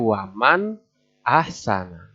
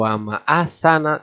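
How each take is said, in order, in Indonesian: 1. Huruf n diucapkan dengan jelas dan tegas. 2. Bunyi n dihilangkan sama sekali. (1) "Harus jelas" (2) "Tidak begitu"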